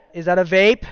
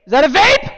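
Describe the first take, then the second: First: Said in the usual way. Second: Higher, louder double take; "vape" rising, shocked second ask; surprised. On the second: Real, not acted.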